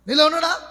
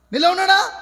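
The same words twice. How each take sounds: The two takes are said the same way.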